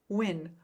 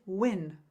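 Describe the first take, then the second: First: The vowel is short and quickly said. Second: The same.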